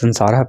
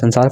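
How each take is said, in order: First: The word ends with a pronounced final vowel. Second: The word ends on a consonant, no final vowel. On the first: This is the Sanskrit reading. "पर संस्कृत क्या पढ़ेंगे, संसारा पढ़ेंगे" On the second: This is the Hindi reading. "ऐसे हिंदी में संसार पढ़ते हैं"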